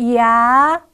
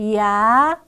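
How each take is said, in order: No difference in how they are said.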